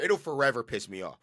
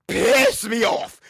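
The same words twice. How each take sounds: First: Said in the usual way. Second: High, loud, drawn-out angry yell; exasperated outburst. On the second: Real, not acted. Host erupts over a narrative he hates, exasperated. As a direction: blow up, stretching the words out loud and high.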